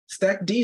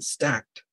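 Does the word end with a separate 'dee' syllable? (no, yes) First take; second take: yes; no. First: It ends in a separate 'dee' syllable. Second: It is one syllable ending in 't'. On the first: The speaker calls it right. "Stack D sounds cooler than stacked" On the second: The speaker calls it wrong. "sounds cooler than stacked"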